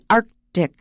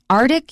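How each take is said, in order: First: The k sound after 'arc' is made. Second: The k sound after 'arc' is left out. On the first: The speaker calls it right. "But please try to pronounce it. That's the correct way" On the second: The speaker calls it wrong. "you may hear that as well. 可能会省略那个可"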